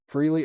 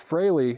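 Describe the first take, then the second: First: The first vowel sounds like 'ee'. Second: The first vowel sounds like 'ay'. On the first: "Is that really how... Freely?" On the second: "like F R A Y kind of"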